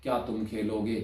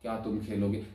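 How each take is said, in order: Both takes have the same delivery.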